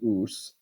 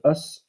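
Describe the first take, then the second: First: The vowel is long and tense. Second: The vowel is short and lax. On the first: "the U S with a macron would be us" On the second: "The U S without the macron would be an us"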